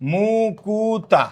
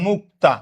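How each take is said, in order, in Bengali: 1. একটি অতিরিক্ত u স্বরধ্বনি k ও t-কে আলাদা করে। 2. k ও t ধ্বনি কোনো স্বরধ্বনি ছাড়াই জুড়ে যায়। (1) "বললাম মুকুতা" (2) "মুক্তা থেকে"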